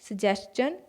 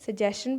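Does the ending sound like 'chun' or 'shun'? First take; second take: chun; shun. First: The ending is said with a 'schun' sound. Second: The ending is said with a 'shun' sound. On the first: The speaker calls it right. "सही उच्चारण क्या है?" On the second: The speaker calls it wrong. "हम सजेस्चन नहीं सजेशन पढ़ते हैं"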